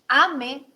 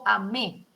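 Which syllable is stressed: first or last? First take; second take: first; last. First: The stress is on the first syllable. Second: The stress is on the last syllable. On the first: It is the present subjunctive. "mi sílaba tónica está en la A" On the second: It is the simple past. "al cambiar de lugar la sílaba tónica"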